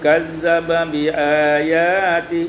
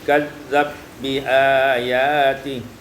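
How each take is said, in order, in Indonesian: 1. Sebuah vokal memisahkan dua bunyi b. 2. Dua bunyi b menyatu tanpa vokal.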